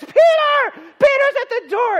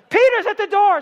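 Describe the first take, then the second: First: Very high, loud cry of news; excited shout. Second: Very high, loud shout of the news; excited shout. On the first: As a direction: yell it to everyone in the house. Loud crowd at the door. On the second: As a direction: yell it through the house. Girl announcing Peter again. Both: Acted.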